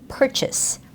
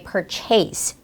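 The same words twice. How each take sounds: First: The second syllable has a weak schwa vowel. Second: The second syllable has a clear full A vowel. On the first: The speaker calls it right. "The correct sound is purchase" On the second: The speaker calls it wrong. "which is not the right sound for this word"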